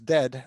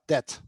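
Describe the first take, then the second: First: The word ends with a voiced D sound. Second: The word ends with a voiceless T sound. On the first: The speaker calls it right. "really a D at the end" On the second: The speaker calls it wrong. "and not dead"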